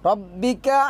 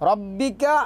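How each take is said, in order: Both takes have the same delivery.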